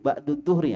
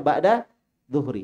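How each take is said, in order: First: The first word ends in an 'u' vowel. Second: The first word ends in an 'a' vowel. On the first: The speaker calls it wrong. "Nggak boleh ba'du, keliru" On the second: The speaker calls it right. "Bacanya ba'da zuhri"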